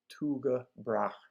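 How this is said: The name is pronounced the Danish way. "the Danes themselves, who pronounce it like"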